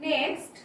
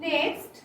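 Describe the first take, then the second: No difference in how they are said.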